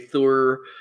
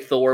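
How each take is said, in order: First: The vowel sounds like 'ur' in 'fur'. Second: The vowel sounds like 'or' in 'for'. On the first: This is the form the group uses. The speaker calls it right. "we say Thur" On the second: This is the form the group avoids. The speaker calls it wrong. "we don't say Thor"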